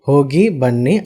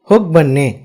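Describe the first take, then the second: First: The phrase is said slowly and carefully. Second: The phrase is said quickly.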